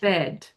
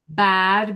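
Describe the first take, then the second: First: The vowel is a short E sound. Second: The vowel is a big open A sound.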